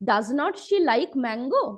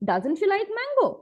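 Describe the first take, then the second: First: Does and not are said separately, sounding choppy. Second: Does and not merge into one smooth contracted word. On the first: The sentence sounds disjointed and lacks flow. The speaker calls it wrong. "খুব খাপছাড়া খাপছাড়া লাগছে ... খুব কাট কাট ভাবে কথা বলছি" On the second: The sentence sounds fluent and natural. The speaker calls it right. "কথাটা আমার কিন্তু আরো অনেক বেশি ফ্লুয়েন্ট হলো"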